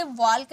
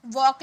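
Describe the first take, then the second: First: वॉल्क with l heard before k; sounded l. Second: वॉक as "wawk", with no l; silent l. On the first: Teacher shows the reading to avoid, sounded l. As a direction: put an audible l into वॉल्क. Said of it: "इसे वॉल्क नहीं". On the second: Teacher gives learners an example, l silent. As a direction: say वॉक leaving the l out. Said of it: "एल silent होता है". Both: Shown as a demonstration.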